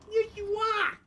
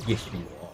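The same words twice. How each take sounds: First: Squeaky pet talk. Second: Soft, low affection; doting pet talk. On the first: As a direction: squeal it adoringly to a dog. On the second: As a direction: murmur it low to a dog. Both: Real, not acted. Baby talk to the dog.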